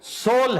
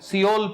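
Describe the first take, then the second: First: The name is said as one syllable. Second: The name is said as two syllables. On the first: The speaker calls it right. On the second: The speaker calls it wrong.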